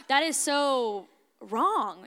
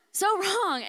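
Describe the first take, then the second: First: "That is so wrong" stretched out slowly, leaning on "wrong"; slow, dragged-out disapproval of herself; drawn-out emphasis. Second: "So wrong" thrown up high, with "So" hit hard; much higher, exclaiming at herself; high emphatic repeat. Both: Retold or imitated.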